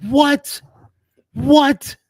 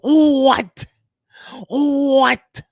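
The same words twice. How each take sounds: First: High, loud hype-man shout of what; a first hammed-up shot at the hype-man yell. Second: High, loud hype-man shout of what. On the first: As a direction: bark the word out like a crunk hype man. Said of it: "in my Little John voice". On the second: Retold or imitated. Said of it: "my [name] [name] voice".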